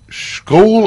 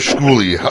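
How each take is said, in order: First: The name ends without a final vowel sound. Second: The name ends with a final vowel sound. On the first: The speaker calls it wrong. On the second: The speaker calls it right.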